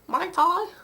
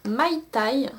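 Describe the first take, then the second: First: Mai Tai retried higher, questioning, English-style; unsure pronunciation. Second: Said in the usual way. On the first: Real, not acted. Vlogger retrying a shade name, unsure English pronunciation. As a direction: try Mai Tai again, pitch up, unsure. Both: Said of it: "je ne sais pas comment ça se prononce".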